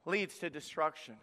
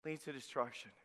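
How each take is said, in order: First: Said in the usual way. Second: Much softer, lower echo; soft, low, solemn repeat; grave quiet repeat. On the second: Shown as a demonstration. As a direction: let it sink in softly. Repeated warning phrase, dropped.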